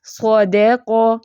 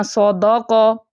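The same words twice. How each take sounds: First: Slow سودے کو with a light, thin dal; سودے said slowly, o full, dal light; correct recitation. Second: سودا کو stretched slowly, د made heavy; سودا with a thickened dal, dragged; wrong way demo. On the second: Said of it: "اس کو ایسے نہیں پڑھنا". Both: Shown as a demonstration.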